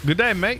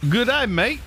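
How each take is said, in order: First: Put-on second try at the Australian accent. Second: High, loud, mock Aussie "Good day, mate"; a playful American-style Australian accent; American take on an Australian accent. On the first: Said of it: "is that good enough?". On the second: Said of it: "Read this with an American version of an Australian accent".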